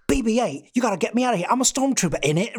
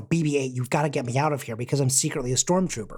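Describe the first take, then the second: First: Higher-pitched, exaggerated British accent; John Boyega's British caricature. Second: Said in the usual way. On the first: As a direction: ham up a London British accent. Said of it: "going for a caricature". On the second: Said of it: "could do an American accent".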